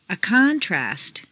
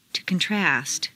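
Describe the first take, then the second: First: CONtrast, stressed on the first syllable. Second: ConTRAST, stressed on the second syllable. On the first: Teacher models noun "contrast", first-syllable stress. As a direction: hit CON in "contrast". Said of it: "first syllable for nouns". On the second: Teacher models verb "contrast", second-syllable stress. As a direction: hit TRAST in "contrast". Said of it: "to the second syllable". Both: Shown as a demonstration.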